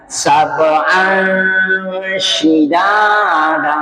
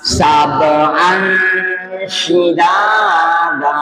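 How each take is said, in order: First: The n sound is hidden, nasal and held long. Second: The same.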